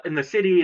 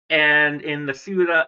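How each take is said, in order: First: Said in the usual way. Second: "ciudad" said the Spanish way, soo-dad; Spanish word ciudad. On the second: Shown as a demonstration.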